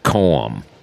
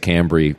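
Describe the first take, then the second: First: It sounds like calm, ending on an m. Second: It ends in a bree sound. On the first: This is how locals in the river parishes say it. "people there with their accent will pronounce it Coam. almost like you're saying the word C-A-L-M" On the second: This is how people in cities say it. "in cities, everybody tends to say Cambry"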